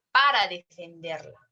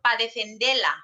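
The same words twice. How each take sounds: First: Said in the usual way. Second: "pa defenderla" with para cut to pa; clipped pa. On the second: Shown as a demonstration. Teacher shows the clipped everyday form. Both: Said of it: "cuando nosotros decimos".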